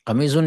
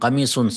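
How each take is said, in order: First: The middle consonant is a z sound. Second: The middle consonant is an emphatic s. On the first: The speaker calls it wrong. "नहीं" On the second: The speaker calls it right. "सौद"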